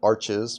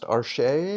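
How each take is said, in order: First: The name is pronounced the English way. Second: The name is pronounced the French way. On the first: This is how many people in the US say it. The speaker calls it wrong. "in the U S, a lot of people call it arches" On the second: This follows the company's French origin. The speaker calls it right. "technically pronounced arche because it's a French, originally French company"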